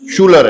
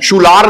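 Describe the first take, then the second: First: The second syllable has a short 'er' vowel. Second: The second syllable has a long open 'ah' vowel. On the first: The speaker calls it right. "शूलर है" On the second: The speaker calls it wrong. "शूलार नहीं है"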